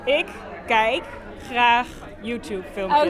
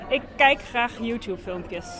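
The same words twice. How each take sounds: First: It is said a little more slowly. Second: It is said at normal speed.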